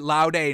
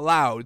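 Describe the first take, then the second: First: The word is said as 'laude', not 'loud'. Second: The word is said like the English 'loud'. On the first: The speaker calls it right. "I think you pronounce it laude" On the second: The speaker calls it wrong. "not loud"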